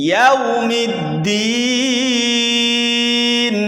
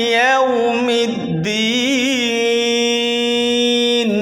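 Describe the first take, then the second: Both takes have the same delivery.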